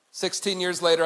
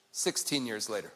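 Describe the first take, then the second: First: Said in the usual way. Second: Much lower and softer, "sixteen" sinking; mournful drop before the closing story; low murmur. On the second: Shown as a demonstration. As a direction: let "sixteen years later" fall away quietly.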